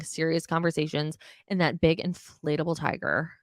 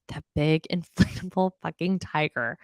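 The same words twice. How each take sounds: First: Said in the usual way. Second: Laughing through the word big; repeating the big inflatable tiger while cracking up. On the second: Real, not acted. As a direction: breaks into a laugh mid-phrase, amused.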